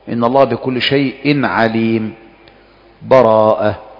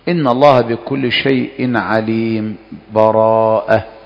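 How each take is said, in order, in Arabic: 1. وقف تام مع تنفس قبل الكلمة الأخيرة. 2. سكت خفيف من غير تنفس قبل الكلمة الأخيرة. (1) "الوجه الأول الوقف ... أن تقف تأخذ نفسك" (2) "والوجه الثاني السكت ... فإنك تسكت من غير تنفس"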